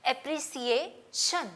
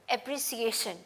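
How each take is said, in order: First: "अप्रिसिएशन" drawn out, s then shun; slow demo. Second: "अप्रिसिएशन" at normal speed; demo at pace. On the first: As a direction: stretch "अप्रिसिएशन" so each part is heard. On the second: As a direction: say "अप्रिसिएशन" once more, smoothly. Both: Shown as a demonstration. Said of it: "सी letter sound के साथ मैं शन".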